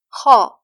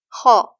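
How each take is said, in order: No difference in how they are said.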